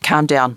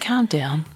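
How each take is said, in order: First: It is said sharply, like a stern telling-off. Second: It is said softly, in a soothing, relaxed way. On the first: It scolds someone. The speaker calls it wrong. "Not like how my parents would say it" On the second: It invites someone to relax. The speaker calls it right. "Not like that. Like"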